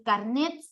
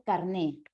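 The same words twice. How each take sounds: First: "carnet" with the final T sounded; foreign form, final T. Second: "carné" ending on a stressed open É; castellanized, no final T. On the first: Teacher showing students the foreign word, "carnet" with sounded T. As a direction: say "carnet" keeping its end consonant. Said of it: "En vez de decir". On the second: Teacher showing students the Spanish form, "carné" without any T. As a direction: drop the final consonant in "carné". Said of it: "mutilar las últimas consonantes". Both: Shown as a demonstration.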